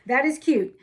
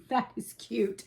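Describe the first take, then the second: First: Louder, stressing "is" in "That is cute"; a louder burst of "That is cute"; emphatic louder repeat. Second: Said in the usual way. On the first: Real, not acted. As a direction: punch out "That is cute" with delight. Repeats the praise twice.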